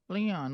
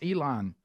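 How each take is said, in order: First: The name begins with an L sound. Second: The name begins with an E sound. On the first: The speaker calls it wrong. "he always mispronounces everything" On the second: The speaker calls it right. "no, it's Elon"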